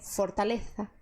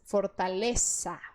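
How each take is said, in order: First: The z is said as a th sound. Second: The z is said as an s sound. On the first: "eles colocam a língua entre os dentes" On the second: "você vai fazer o som S"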